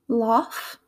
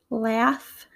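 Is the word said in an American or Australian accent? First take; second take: Australian; American. First: Spoken in an Australian English accent. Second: Spoken in an American English accent. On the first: "my attempt at an Australian accent" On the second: "in my American accent"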